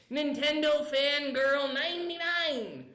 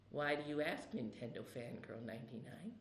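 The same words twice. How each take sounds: First: Said in the usual way. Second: Much lower, softer, sinister; creepy low voice. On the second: Acted. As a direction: lean in close and menacing. Creepy answer about neighbors.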